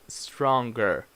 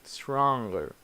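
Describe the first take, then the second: First: A hard g is pronounced after the ng. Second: The g after the ng sound is silent. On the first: The speaker calls it wrong. "It's not stronger. So this G is not pronounced" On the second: The speaker calls it right. "So you say stronger"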